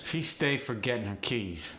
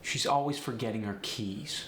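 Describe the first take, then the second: First: Light AAVE delivery. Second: Said in the usual way. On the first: Shown as a demonstration. Teacher showing "stay" for habit, AAVE. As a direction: say it with an AAVE lilt. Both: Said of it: "Stay is the first one".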